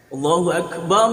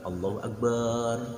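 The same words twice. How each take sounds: First: The final syllable of Akbar is kept short. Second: The final syllable of Akbar is drawn out long. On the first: The speaker calls it right. "Barnya dibaca pen" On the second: The speaker calls it wrong. "kalau barnya dibaca panjang, nanti artinya akan berubah"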